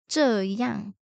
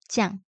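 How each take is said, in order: First: It is said in standard Mandarin form. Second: It is said in a Taiwanese, contracted form.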